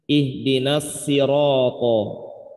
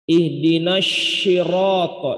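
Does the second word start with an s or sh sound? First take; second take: s; sh. First: The second word starts with a thin s sound. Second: The second word starts with a breathy sh sound. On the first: "masih ada cara baca imam dan atau riwayat yang baca dengan sin" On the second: "Jadi nyebar angin di mulutnya itu kebanyakan"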